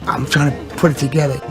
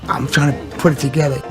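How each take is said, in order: No difference in how they are said.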